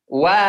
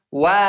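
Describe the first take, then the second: No difference in how they are said.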